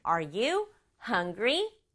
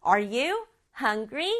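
First: Very slow, each word spaced, rising at the end; slow model question. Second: Slow repeat with a rise on "you"; slow model question. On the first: Teacher modelling a question slowly for children. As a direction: spell it out slowly for the kids. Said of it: "물어보는 말은". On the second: Teacher repeating the question slowly for children. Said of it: "이렇게 물어볼 수가 있겠죠". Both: Shown as a demonstration.

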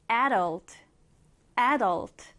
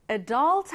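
First: Adult with the stress up front, AD-ult; stress on first syllable. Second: Adult with the stress on the back, a-DULT; stress on second syllable. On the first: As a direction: hit the opening "a" of adult, let the ending fall away. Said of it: "앞에 강세를 두어서". (adult, 앞 음절에 강세) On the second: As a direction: say adult leaning on "dult", short weak first vowel. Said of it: "쌤이 방금 발음했던 것처럼". (adult, 뒤 음절에 강세) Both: Shown as a demonstration.

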